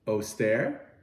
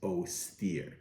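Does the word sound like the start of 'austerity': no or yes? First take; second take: yes; no. First: It sounds like the start of austerity. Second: It does not sound like austerity's start. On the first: "I pronounce it austere and because of the word austerity" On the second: "I think the correct pronunciation is austere"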